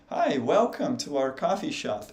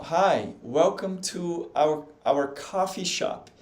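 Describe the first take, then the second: First: Imitating an American greeting a customer; lightly put-on American delivery, lively pitch swings; American accent. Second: Slow, careful English practice; practice reading. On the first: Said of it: "você ouviria um americano falar assim". (imitando sotaque americano) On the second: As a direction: read it out slowly, word by word. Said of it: "praticar, ó". (leitura lenta de treino em inglês) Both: Shown as a demonstration.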